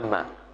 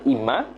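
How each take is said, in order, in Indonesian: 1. Vokal pertama adalah bunyi 'a'. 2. Vokal pertama adalah bunyi 'i'. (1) "dengan fathah hamzah. Contoh amma" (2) "dengan kasrah hamzah dibaca imma"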